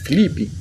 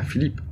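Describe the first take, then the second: First: It is said the Brazilian way, ending in 'ee'. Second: It is said the European Portuguese way.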